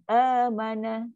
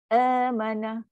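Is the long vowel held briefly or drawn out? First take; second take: brief; brief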